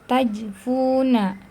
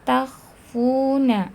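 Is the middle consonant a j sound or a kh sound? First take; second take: j; kh. First: The middle consonant is a j sound. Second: The middle consonant is a rasping kh sound. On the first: The speaker calls it wrong. "jangan sampai dibaca tajfuna" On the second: The speaker calls it right. "tapi takhfuna"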